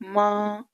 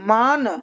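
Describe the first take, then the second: First: The vowel is nasalized with no full n. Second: The word ends with a clear full n. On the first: The speaker calls it right. "नाक से पढ़ा जाएगा" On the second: The speaker calls it wrong. "अब मान तो नहीं कह सकते ना"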